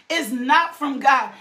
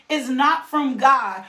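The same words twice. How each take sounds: The two takes are said the same way.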